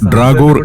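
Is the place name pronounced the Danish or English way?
Danish. The name is pronounced the Danish way. The speaker calls it right. "Danish ഭാഷയിൽ ഇങ്ങനെയാണ് പറയുക"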